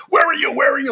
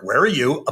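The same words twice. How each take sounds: First: High-pitched mock yell, accusing; much higher voice, pressing the question; imitated screaming wife. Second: Said in the usual way. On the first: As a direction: imitate a frantic wife demanding an answer. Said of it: "she's trying to catch me". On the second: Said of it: "And I go".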